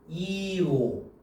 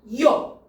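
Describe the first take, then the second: First: The two vowels are said as separate sounds. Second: The two vowels glide quickly into one sound. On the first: The speaker calls it wrong. "이렇게 하면 안 돼" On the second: The speaker calls it right. "요가 됐잖아"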